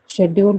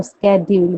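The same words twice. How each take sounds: First: Said in the usual way. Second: "शेड्यूल" as "sked-yool"; hard SK opening on "शेड्यूल"; their pronunciation. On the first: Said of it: "शेड्यूल बोलेंगे". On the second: Shown as a demonstration. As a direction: contrast "शेड्यूल" said with "sk". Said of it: "वो शेड्यूल बोलेंगे".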